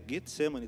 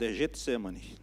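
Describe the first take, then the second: First: Pronounced the Greek-style way. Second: Pronounced the common Portuguese way. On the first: This follows the original Greek. "no grego, a pronúncia é correta" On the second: This is the form listeners expect. "o pastor está falando errado, é Getsemane"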